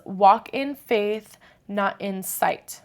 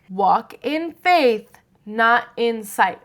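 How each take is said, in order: First: It is said at normal volume. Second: It is said louder than before.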